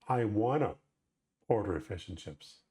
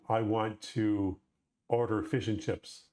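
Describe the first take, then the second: First: The words are run together into casual speech. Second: Each word is said fully and separately.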